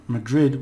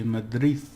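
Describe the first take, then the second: First: Madrid with a hard final d, English style; wrong way. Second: Madrid with the final d dropped to a soft th. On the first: Teacher showing learners the wrong pronunciation. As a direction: say Madrid ending on a clear d. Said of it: "not Madrid, we say Madrid". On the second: Teacher showing learners the right pronunciation. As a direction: let the d of Madrid fade. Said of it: "we say Madrid". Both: Shown as a demonstration.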